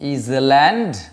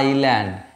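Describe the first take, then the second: First: The s is pronounced, like 'is-land'. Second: The s is silent, like 'eye-land'. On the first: The speaker calls it wrong. "ইজল্যান্ড নয়" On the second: The speaker calls it right. "এখানে এস silent থাকে"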